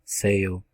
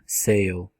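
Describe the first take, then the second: No difference in how they are said.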